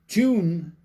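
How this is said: It is said the Irish way. "Tune in Ireland"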